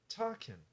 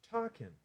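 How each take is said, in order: Both takes have the same delivery.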